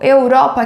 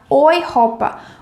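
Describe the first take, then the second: First: The first syllable sounds like 'eh-oo'. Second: The first syllable sounds like 'oy'. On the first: The speaker calls it wrong. "você não vai falar eu, Europa, que nem no português" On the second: The speaker calls it right. "ele vai ficar com som de OI"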